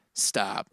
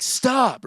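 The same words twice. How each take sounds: First: "Stop," said softly and lower, almost under the breath. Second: Sharp high stop. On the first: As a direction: breathe out "Stop," gently and low. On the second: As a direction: snap out "Stop," high and urgent. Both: Shown as a demonstration. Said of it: "You can say the word stop in twenty different ways".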